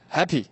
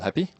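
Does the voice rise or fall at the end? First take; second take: fall; rise. First: It ends with a falling, certain tune. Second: It ends with a rising, questioning tune.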